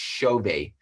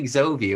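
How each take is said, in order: First: The name begins with a ch sound. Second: The name begins with a vowel before the x. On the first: The speaker calls it right. "it's a Portuguese pronunciation and it's it's pronounced Chove" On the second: The speaker calls it wrong. "we always were calling Exovi"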